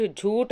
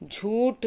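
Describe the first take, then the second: First: झूठ ending in aspirated retroflex th; correct form. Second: झूठ ending in plain t, "jhoot"; no breath on the last sound of झूठ; wrong form. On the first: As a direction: breathe out on the ठ of झूठ. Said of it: "बल्कि झूठ होता है". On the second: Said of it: "झूठ नहीं होता". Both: Shown as a demonstration.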